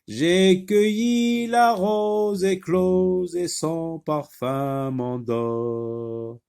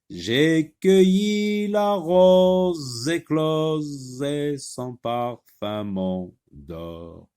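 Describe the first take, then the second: First: The z sounds are said in an ordinary way. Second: The z sounds are drawn out and exaggerated.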